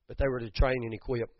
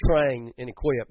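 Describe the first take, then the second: First: Said in the usual way. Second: "train and equip" said slowly and leaned on, a bit louder; italics on train and equip. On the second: Shown as a demonstration. Preacher marking "train and equip" in italics, slow and pressed. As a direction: underline "train and equip" by slowing and pressing each word. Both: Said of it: "and I say in italics".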